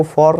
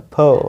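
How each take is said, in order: First: "for" with a full vowel and sounded r; wrong FOR. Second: "for" short, with the r dropped; correct FOR. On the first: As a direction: say "for" as "fawr". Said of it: "तो इसको आपको for नहीं बोलना है". ("for" को "फॉर" बोलें, र के साथ) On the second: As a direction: say "for" as a brief "fuh". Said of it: "इसको बोलना है for". ("for" को "फ" बोलें, बिना र) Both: Shown as a demonstration.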